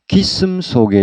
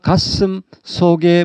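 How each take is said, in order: First: The first syllable is said with an 'ee' vowel. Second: The first syllable is said with an 'a' vowel. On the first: The speaker calls it wrong. "가슴 속에가 아니고 기슴 속에 이런 식으로 들리다" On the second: The speaker calls it right. "예를 들어서 가슴 속에 뭐 이렇게 말하는데"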